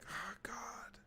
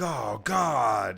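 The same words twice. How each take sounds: First: It is said quietly, as a frustrated sigh. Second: It is shouted loudly.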